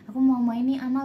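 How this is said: The phrase ends with a continuing, unfinished tune. More is coming after this. "Nanti kalau ada koma"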